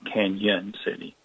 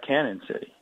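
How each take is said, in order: First: The first word has a 'ny' sound. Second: The first word has a plain 'n' sound. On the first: The speaker calls it right. "to make that the the Spanish uh, Y sound" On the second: The speaker calls it wrong. "If you don't put the the tilde over the end, it looks like Cannon City"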